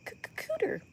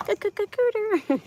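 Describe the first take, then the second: First: Stammered, whispered and high, unsure she may say it; hesitant whisper. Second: The word cooter stuttered then said out louder and higher; bold stammer. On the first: Nervously whispering the rude word to her viewers. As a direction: whisper the risky word cooter, stuttering on c-, c-. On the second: Daring to say the rude word out loud to viewers. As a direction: commit to c-, c-, c-, cooter with a cheeky punch. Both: Real, not acted. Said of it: "I don't know if I'm allowed to say that".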